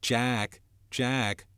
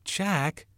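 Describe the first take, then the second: First: Mocking echo, raised in pitch; bitter mimicry. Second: High cry of a name; exclaimed protest. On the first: Jack throws Ralph's cry back, bitter mimicry. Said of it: "Jack's voice sounded in bitter mimicry". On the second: Ralph protests at Jack's taunt, high exclamation. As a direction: call the name sharply upward in protest. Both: A narrator's reading.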